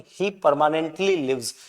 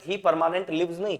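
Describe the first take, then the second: First: Slow, careful "permanently" with stress on it; correct form. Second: He permanent lives marked as the wrong version; wrong form. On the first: Teacher correcting the sentence, slow and stressed. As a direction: lean on "permanently" as the fix. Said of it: "permanently करना पड़ेगा". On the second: Teacher showing the error to students, slow wrong form. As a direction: say "permanent" as the rejected wrong word. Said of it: "ना कि permanent". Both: Shown as a demonstration.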